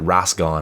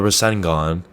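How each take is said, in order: First: The word is squashed into two syllables. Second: The word is said with three full syllables. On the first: The speaker calls it wrong. "but he pronounces it Rasgon" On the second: The speaker calls it right. "It's the Rasengan"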